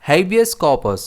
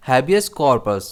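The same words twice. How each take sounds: First: "habeas corpus" as HAY-bee-us KAW-pus; first pronunciation. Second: "habeas corpus" as HAB-ee-us KOR-pus; second pronunciation. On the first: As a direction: stress the H and K syllables of "habeas corpus", no r in corpus. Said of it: "जिसमें stress H और के पर रहता है". ("habeas corpus" को हेबियस कॉपस बोलें, H और के पर ज़ोर) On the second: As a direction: stress the H and K syllables of "habeas corpus", with an r in corpus. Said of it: "और इसका दूसरा प्रोनाउंसिएशन है". ("habeas corpus" को हैबियस कॉर्पस बोलें, एच और के पर ज़ोर) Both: Shown as a demonstration.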